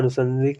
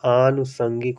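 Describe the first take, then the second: First: The first vowel is a short a. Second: The first vowel is a long a. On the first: The speaker calls it wrong. "अनुषंगिक नहीं" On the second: The speaker calls it right. "बड़ा आ की मात्रा यहाँ पर बना लेना है"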